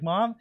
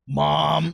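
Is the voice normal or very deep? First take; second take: normal; very deep. First: It is said in a normal voice. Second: It is said in a very deep voice.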